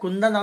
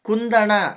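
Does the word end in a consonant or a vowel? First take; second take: consonant; vowel. First: The word ends in a plain n sound. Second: The word ends in a retroflex n and vowel. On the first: This is the everyday spoken form. The speaker calls it wrong. "ಕುಂದನ್ ಅಲ್ಲ ಅದು" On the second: This is the proper standard form. The speaker calls it right.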